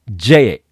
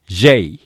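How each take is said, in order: First: J as katakana "jee", no i glide; Japanese long vowel. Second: J as "jei", e gliding into i; English diphthong. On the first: Teacher showing the mistake, J with a Japanese long vowel. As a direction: hold a long "e" in J. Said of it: "これも間違いですね". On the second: Teacher modelling correct letters, J with an English glide. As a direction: glide tightly to i in J. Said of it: "正確に発音しなければいけません". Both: Shown as a demonstration.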